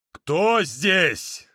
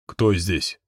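First: A stern barked question; barking demand. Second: A low, wary growl of a question; low menacing question. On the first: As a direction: bark it at the room. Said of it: "рявкнул Эр громче". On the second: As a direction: ask into the dark, low. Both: Acted.

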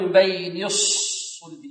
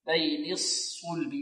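First: Slow الصلب with the first saad wrongly pursed; u-coloured first saad in الصلب; early lip rounding. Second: Soft, slow الصلب, rounded on the second saad; correct lip timing. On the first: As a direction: demonstrate rounding too soon in الصلب. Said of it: "لا نضم الشفتين في الصاد الأولى". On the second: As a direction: keep lips neutral until the u of الصلب. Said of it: "لا نقول". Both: Shown as a demonstration.

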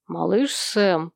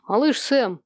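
First: Slow, low and gentle address; soft, gentle. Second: Mildly stern address, firm and brisker. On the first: Father gently addressing his reluctant son, soft. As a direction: draw the name out softly. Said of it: "мягко сказал ему отец". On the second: Father sternly reminding his son of his task, stern. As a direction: call the boy to order. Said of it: "сурово добавил он". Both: A narrator's reading.

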